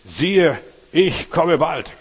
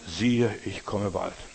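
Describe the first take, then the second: First: It is read louder than before. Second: It is read at a normal volume.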